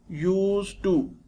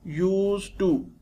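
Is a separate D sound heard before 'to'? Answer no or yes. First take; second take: no; no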